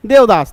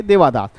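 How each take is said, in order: First: देवदास with no long "aa" after the v; standard pronunciation. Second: देवादास with a long "aa" after the v; variant pronunciation. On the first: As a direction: say देवदास as dev-daas, closing on the v. (देवदास में 'देव' के बाद 'आ' नहीं) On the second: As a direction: say देवादास as de-vaa-daas. (देवादास में 'देवा' का 'आ' लंबा) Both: Shown as a demonstration. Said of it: "pronunciation का खेल है".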